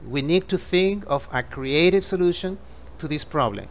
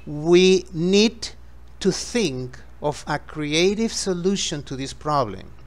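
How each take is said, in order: First: The sentence is spoken at a faster pace. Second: The sentence is spoken at a slower pace.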